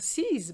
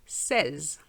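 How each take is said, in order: First: It is said with an English pronunciation. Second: It is said with a French pronunciation. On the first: The speaker calls it wrong. "very often I hear sees" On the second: The speaker calls it right. "it's really number seize in French"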